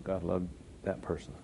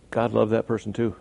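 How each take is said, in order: First: "God loved that person" said softly, falling; soft repeat. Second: Said in the usual way. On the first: Acted.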